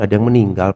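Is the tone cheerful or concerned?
concerned. It is said in a sad, concerned tone. The speaker calls it right. "seperti orang prihatin"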